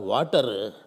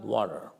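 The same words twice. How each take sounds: First: It is said in a Malayali accent. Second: It is said in an American accent. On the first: "if you are a Malayali" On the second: "In America"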